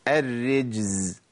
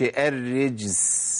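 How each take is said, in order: First: الرجز slow, z held voiced; الرجز ببطء وزاي مجهورة; correct slow z. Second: الرجس with an s sound in place of z; الرجس بسين خاطئة; wrong s for z. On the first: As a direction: stretch الرجز keeping the buzz of the z. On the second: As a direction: show the mistake الرجس hissed. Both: Shown as a demonstration. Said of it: "ما اقولش الرجس".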